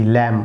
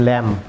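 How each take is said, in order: First: ল্যাম ending on a pure m; silent b. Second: ল্যাম্প ending in a p-like stop; wrongly sounded b. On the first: Teacher gives viewers the correct form, ল্যাম without b. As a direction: close ল্যাম on m with no release. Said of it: "ল্যাম, not ল্যাম্প". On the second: Teacher warns viewers of the error, a stop ending ল্যাম্প. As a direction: pop the lips open after m in ল্যাম্প. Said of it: "not ল্যাম্প". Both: Shown as a demonstration.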